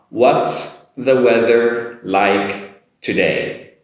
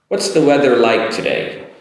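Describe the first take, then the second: First: The sentence is said slowly and carefully. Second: The words run smoothly together. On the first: "Do it slowly this time" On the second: "Now I'm going to link it together this time"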